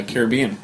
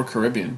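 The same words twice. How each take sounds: First: Caribbean stressed on BE, ka-rih-BEE-un; stress on third syllable. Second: Caribbean stressed on RIB, kuh-RIB-ee-un; stress on second syllable. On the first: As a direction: say Caribbean with the weight on the BE. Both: Shown as a demonstration. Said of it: "depending on how you want to determine it".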